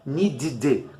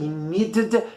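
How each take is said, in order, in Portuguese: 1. A terminação tem uma vogal 'ee'. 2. A terminação tem uma vogal 'eh' plena. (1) "também não é um i" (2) "os nativos não vão falar assim"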